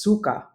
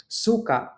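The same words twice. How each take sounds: First: Suka in the vomit sense, at usual pitch; stress contrast. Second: Suka in the vinegar sense, pitched high then falling; stress contrast. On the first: Teacher contrasting vinegar and vomit, suka stressed differently. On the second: Teacher giving a minimal pair, suka high then falling. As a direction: start suka high and let it fall. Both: Shown as a demonstration. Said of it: "difference in meaning is solely due to stress".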